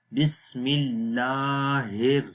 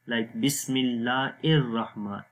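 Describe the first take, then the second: First: Slow, ہر with a clear breathy h and thin r; thin har. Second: الرحمن said with hamza-like ar, the wrong way; wrong hamza sound. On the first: Teacher giving the correct version after the mistake. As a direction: sound ہر with the h, not ar. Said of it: "ہر باریک ہوگی آواز". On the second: Teacher demonstrating the wrong pronunciation. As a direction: show the mistake with ar not har. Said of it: "ار غلط ہو جائے گا". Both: Shown as a demonstration.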